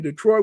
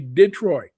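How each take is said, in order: First: The stress is on the second syllable. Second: The stress is on the first syllable. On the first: "saying Detroit" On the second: "forward stress ... we say Detroit"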